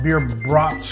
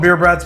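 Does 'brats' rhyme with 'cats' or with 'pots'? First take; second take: pots; cats. First: The vowel in 'brats' is like in 'pots'. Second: The vowel in 'brats' is like in 'cats'. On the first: This matches the original word bratwurst. "supposed to be pronounced beer brats because it's bratwurst" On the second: This is how the speaker personally says it. "I call them beer brats"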